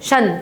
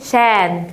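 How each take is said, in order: First: The vowel is reduced, like 'shn'. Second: The vowel is opened wide, like 'shan'. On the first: The speaker calls it right. "قولي شن" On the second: The speaker calls it wrong. "بتفتحي ليه؟"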